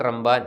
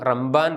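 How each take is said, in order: Both takes have the same delivery.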